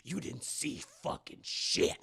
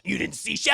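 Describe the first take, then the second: First: Much lower, softer and slow, menacing; creepy low threat. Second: Said in the usual way. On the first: Retold or imitated. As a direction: lean in and threaten her quietly. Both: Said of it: "That's right, Esther to Max".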